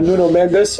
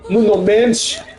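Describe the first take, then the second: First: The name is said with plain English sounds. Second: The name is said with Portuguese-style sounds.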